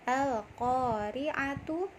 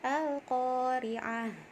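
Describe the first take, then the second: First: The word ends in a full 'tu' ending. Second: The word ends in a silent-vowel 'h' sound. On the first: The reading continues without a stop. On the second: The reader stops at this word.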